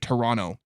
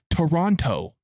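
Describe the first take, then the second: First: The second T is dropped. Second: The second T is clearly pronounced. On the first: The speaker is Canadian. The speaker calls it right. "If they're Canadian, they'll say Toronto. ... You don't pronounce the T" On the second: The speaker is not Canadian. The speaker calls it wrong. "If they're not Canadian, they'll say Toronto"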